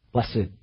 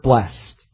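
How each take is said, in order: First: "blessed" as bles-sed, low and soft; two-syllable blessed. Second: "blessed" as one syllable, ending in -st. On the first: Preacher repeating the psalm's first word, blessed in two syllables. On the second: Preacher naming the psalm's first word, blessed as one syllable. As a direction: say "blessed" as blest, drawn slow. Word shown in two pronunciations. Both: Shown as a demonstration.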